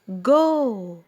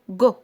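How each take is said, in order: First: The vowel is drawn out long. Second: The vowel is cut short. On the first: The speaker calls it right. "أنا مديت" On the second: The speaker calls it wrong. "ما ينفعش أقول"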